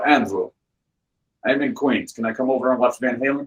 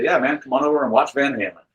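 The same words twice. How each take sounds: First: Lightly imitated Russian friend's accent. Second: Said in the usual way. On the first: Russian friend phones to ask to come over, imitated Russian accent. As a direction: mimic a Russian caller. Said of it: "a very thick Russian accent".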